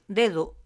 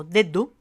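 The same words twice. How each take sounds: First: Said in the usual way. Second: "dedo" with the middle d closed hard on the teeth; both Ds as stops. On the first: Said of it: "sería su sonido normal". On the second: Shown as a demonstration. Teacher contrasting two ways to say one word, hard-d pronunciation. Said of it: "pronunciando las dos Ds como un sonido oclusivo".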